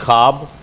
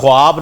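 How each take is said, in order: First: No w sound follows the kh. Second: A w sound follows the kh. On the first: The speaker calls it right. "उसमें आपने वाव silent कर देना है" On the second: The speaker calls it wrong. "ख्वाब नहीं"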